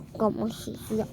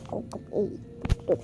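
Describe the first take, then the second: First: Said in the usual way. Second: Soft unvoiced whisper. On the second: Shown as a demonstration. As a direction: breathe it without voice. Repeats line, then whispers it.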